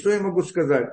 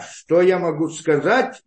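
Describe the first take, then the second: First: It sounds resigned, admitting fault. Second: It sounds defiant, pushing back.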